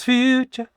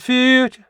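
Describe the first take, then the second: First: "future" with the final "-ture" still clearly sounded, light but present; "future" ending kept alive, the right way; energized ending. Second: "future" with the last syllable dropped, said high and loud; "future" ending swallowed, the wrong way; clipped ending. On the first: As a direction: keep a small "cha" at the end of "future". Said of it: "It's future". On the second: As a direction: let the "-ture" of "future" vanish. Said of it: "It's not future". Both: Shown as a demonstration.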